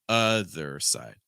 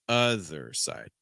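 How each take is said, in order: No difference in how they are said.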